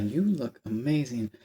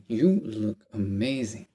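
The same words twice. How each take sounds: First: Slow, lightly suave retelling; a hint of smooth charm, slow; suave compliment again. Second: Slow, smooth imitation of a suave guy; lightly voiced, slow and silky praise; smooth suave compliment. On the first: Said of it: "the way he said it". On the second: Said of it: "not gonna say it as smooth and as suave".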